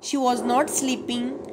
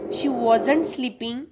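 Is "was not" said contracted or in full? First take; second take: full; contracted. First: Was and not are said as two full words. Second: Was and not are joined into one word. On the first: "वॉज नॉट हे full फॉर्ममध्ये दिलेलं आहे" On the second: "वॉजंट हे contracted form मध्ये दिलेलं आहे"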